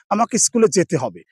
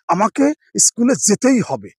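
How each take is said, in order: First: It is said plainly, without emphasis. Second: It is said with strong, insistent emphasis.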